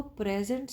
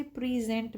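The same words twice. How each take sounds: First: "present" stressed on the first syllable, PREZ-ent; noun stress. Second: "present" with second syllable stressed, pree-ZENT; verb stress. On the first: Teacher contrasting noun with verb, "present" said PREZ-ent. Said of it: "ये एक noun था". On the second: Teacher contrasting verb with noun, "present" said pree-ZENT. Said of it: "अब वो एक verb बन गया है". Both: Shown as a demonstration.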